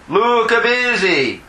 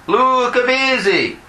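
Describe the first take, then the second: The two takes are said the same way.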